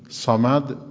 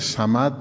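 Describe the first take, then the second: First: It begins with a heavy, emphatic s sound. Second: It begins with a plain, light s sound. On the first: The speaker calls it right. "صمد با صاده" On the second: The speaker calls it wrong. "صمد با سینه"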